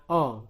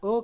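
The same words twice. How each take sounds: First: "O" said as "aw"; "O" as in pohon; open O sound. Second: "O" said as a rounded "oh"; "O" as in toko; close O sound. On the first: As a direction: say "O" open, like the vowel in "thought". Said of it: "kapan dibaca O". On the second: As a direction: say "O" tense and closed, without glide. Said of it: "Kapan dibaca O". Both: Shown as a demonstration.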